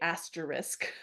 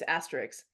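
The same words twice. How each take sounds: First: The word ends with s then k, said slowly. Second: The word ends with a k then s sound. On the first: This is a careful, deliberate way of saying it. "I have to slow down to say asterisk" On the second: This is the everyday way of saying it. "my natural pronunciation"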